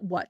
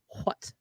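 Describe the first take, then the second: First: It starts with a plain w sound. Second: It starts with a breathy h before w. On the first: The speaker calls it wrong. "it's not what" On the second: The speaker calls it right. "real traditional proper about the word what"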